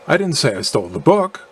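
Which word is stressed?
book. The stress falls on the word book. Something other than the book was stolen. "implying that I did steal something other than the book"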